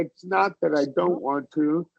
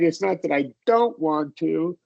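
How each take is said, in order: First: The stress is on not. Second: The stress is also on don't.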